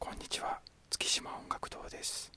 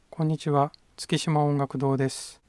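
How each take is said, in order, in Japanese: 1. この声は小さくて、やわらかいです。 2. この声は中くらいの大きさです。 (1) "小さく喋ります。" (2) "中くらいに声を出してみます。"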